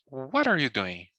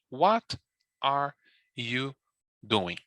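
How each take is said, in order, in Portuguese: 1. As palavras são ditas rapidamente e ligadas entre si. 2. Cada palavra é dita devagar e separadamente. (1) "eu posso juntar e falar" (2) "falando devagar, pronunciando letra por letra, palavra por palavra"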